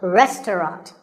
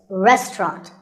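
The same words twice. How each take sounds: First: It is said with three syllables. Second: It is said with two syllables. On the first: "The second syllable is just ta, and the third is ront" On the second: "In British English, you might hear just two syllables"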